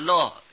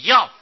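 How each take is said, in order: First: The syllable is pronounced lè. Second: The syllable is pronounced yào. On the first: Seeing them brings joy. "或者有人念着乐字" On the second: One likes to see them. "开始学的时候就念着要"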